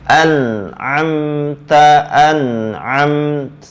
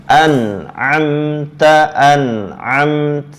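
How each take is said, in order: The two takes are said the same way.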